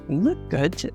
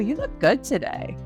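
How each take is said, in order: First: It is said in a low, slow voice. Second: It is said brightly, with an excited tone. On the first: It is a flirty, slightly sexy compliment. "low D J voice, slow, slow canter to it" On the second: It is a friendly compliment. "That's very friendly. You heard me. I was kind of excited"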